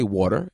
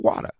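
First: It is said in a New York accent. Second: It is said in a Boston accent.

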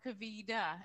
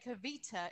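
First: The middle t is flapped, American style. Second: The middle t is crisp, British style.

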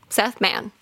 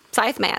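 First: The first name has the vowel 'eh', like Seth. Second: The first name has the vowel 'eye', like scythe. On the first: "I'm going to call him Seth" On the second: "It's like Scythe"

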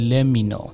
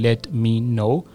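First: The t in 'let' is dropped. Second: The t in 'let' is pronounced clearly. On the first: The speaker calls it right. "اون ت رو اون وسط نمیگیم" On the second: The speaker calls it wrong. "خیلی وقتا let me know نمیگیم چون که یه ذره سخته"

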